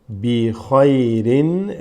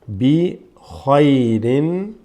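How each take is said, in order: No difference in how they are said.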